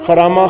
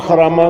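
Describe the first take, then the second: No difference in how they are said.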